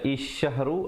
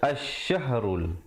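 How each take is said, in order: First: The word begins with an i vowel. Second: The word begins with an a vowel. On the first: The speaker calls it wrong. "jangan baca isyahru" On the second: The speaker calls it right. "tapi baca asyahrul"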